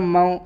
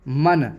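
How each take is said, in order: First: The n sound is hidden in the nose. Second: The n sound is pronounced clearly. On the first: The speaker calls it right. "नून की आवाज़ नाक में छुपाकर पढ़ेंगे" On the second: The speaker calls it wrong. "मन ऐसे नहीं"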